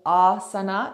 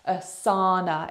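First: The stress falls on the first syllable. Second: The stress falls on the second syllable. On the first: "Asan or asana is the emphasis on the first part" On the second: "Asana is the emphasis on the second part"

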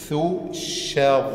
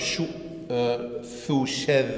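First: A light syllable is followed by a heavy one. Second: Both syllables are said light and soft. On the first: The speaker calls it right. "Aber richtig ist" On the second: The speaker calls it wrong. "oder man macht beide sanft"

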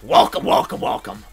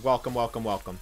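First: It is said in a put-on character voice. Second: It is said in his normal speaking voice. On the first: The speaker calls it right. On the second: The speaker calls it wrong.

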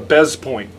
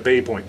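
First: The first word ends with a z sound. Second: The first word ends with a vowel sound. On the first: This is the common North American way of saying it. The speaker calls it wrong. "everybody in North America pronounces this a bez point" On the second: This follows the original French way of saying it. The speaker calls it right. "It should be pronounced bay"

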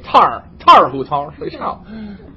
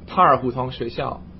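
First: It is said with a Beijing accent. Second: It is said without a Beijing accent.

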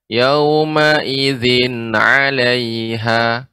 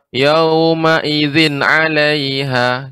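First: The phrase is said at a calm, natural pace. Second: The phrase is rushed, with a cut-off ending. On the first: The speaker calls it right. "diucapkan secara alami saja" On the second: The speaker calls it wrong. "ketika Ibu membaca terlalu cepat"

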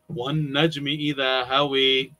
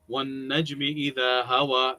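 First: The final vowel is tilted toward e. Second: The final vowel is an open, clear a. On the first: This is another dialect's recitation with vowel tilting. "Different, right?" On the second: This is the standard Hafs recitation. "that one is easy and clear. That's how we recite, by the way, according to Hafs"

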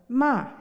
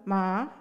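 First: The word is said in the fourth tone. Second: The word is said in the second tone. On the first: It is a reproach. "in the fourth tone" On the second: It means hemp. "In the second tone"

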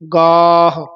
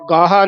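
First: The word ends on the h sound. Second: A vowel is added after the final h. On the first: The speaker calls it right. "ਹਾਹੇ ਤੇ ਆਵਾਜ਼ ਛੱਡ ਦੇਣੀ ਹੈ" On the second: The speaker calls it wrong. "ਗਾਹਾ ਨਹੀਂ ਕਹਿਣਾ"

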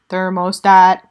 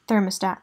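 First: It is said in an electronic robot voice. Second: It is said in a normal human voice.

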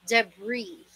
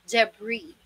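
Both takes have the same delivery.

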